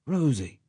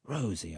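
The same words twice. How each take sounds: First: Her name again, higher and fuller; firmer call. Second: Soft, tender name, much softer; tender address. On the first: Allnut repeats Rose's name more insistently, firmer. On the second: Allnut tenderly calls Rose in the dark, soft. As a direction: murmur her name fondly. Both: A narrator's reading. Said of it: "said Allnut".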